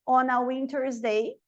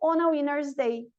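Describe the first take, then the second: First: The T after the N is clearly pronounced. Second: The T after the N is dropped. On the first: "o T depois do N, ele é opcional" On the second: "Você pode falar ou não"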